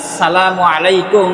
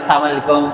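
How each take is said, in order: First: Every sound of the greeting is said carefully. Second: The greeting is said sloppily, blurring its sounds. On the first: It wishes peace upon the listener. The speaker calls it right. "যখন আপনি একজন মুসলমানকে সালাম দিবেন" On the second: It wishes destruction upon the listener. The speaker calls it wrong. "কিন্তু আজকের আমাদের উচ্চারণ হয় না, আমরা বলি"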